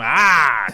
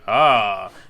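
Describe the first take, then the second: First: It is said with exaggerated, dramatic expression. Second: It is said flatly, with little expression.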